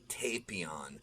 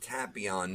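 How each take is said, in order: First: The name's start does not sound like tapioca. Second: The name's start sounds like tapioca. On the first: This is the dub's pronunciation. The speaker calls it wrong. "not Tapion. Uh, the dub is wrong" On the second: It is a tapioca pudding reference. The speaker calls it right. "it's pronounced Tapion"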